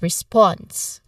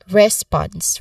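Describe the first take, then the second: First: The stress is on the second syllable. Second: The stress is on the first syllable. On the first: The speaker calls it right. "The primary stress falls on the second syllable" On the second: The speaker calls it wrong. "many learners might incorrectly stress the first syllable"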